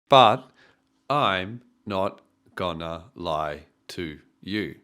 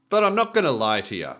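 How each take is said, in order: First: Every word gets about the same weight. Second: Lie is strongest; to and you are weak. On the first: "Once again, there's no stress" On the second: "this would be our nuclear stress or the strongest stress in this sentence"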